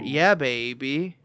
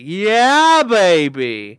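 First: It imitates the other host's different emphasis on baby. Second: It is said in an Austin Powers impression.

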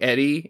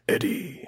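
First: The name is said in a normal human voice. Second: The name is said in a put-on monster voice. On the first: "in like a normal human voice" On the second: "say it like a symbiote"

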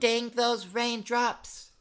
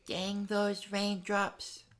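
First: It is said loudly. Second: It is said softly.

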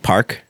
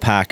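First: The word is said with a clear r sound. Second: The word is said with the r dropped. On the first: "she'll say park" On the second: "my mom fakes a Boston accent"

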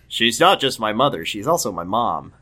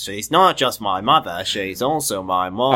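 First: It is said in the speaker's normal voice. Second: It is said in an imitation of Braley's voice.

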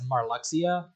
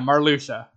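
First: The X is said as a 'ks' sound. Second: The X is said as a 'sh' sound. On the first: The speaker calls it wrong. "For the longest time, I said his name as Marluxia" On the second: The speaker calls it right. "apparently that X is pronounced as more of a sh"

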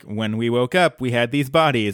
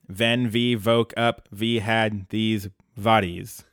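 First: It is said in a plain accent. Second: It is said in a Russian accent.

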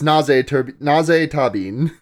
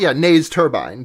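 First: The surname ends with a short 'bin' sound. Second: The surname ends with a long 'bine' sound. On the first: This is how the name is said in the show. The speaker calls it right. "but it's Naze Tabin" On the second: This is the name read as it is spelled. The speaker calls it wrong. "if I was pronouncing that name as it was spelled"

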